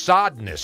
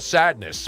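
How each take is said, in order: First: The first syllable sounds like 'sod'. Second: The first syllable sounds like 'sad'. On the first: The speaker calls it right. "but it's Sodness, actually" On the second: The speaker calls it wrong. "Not sadness"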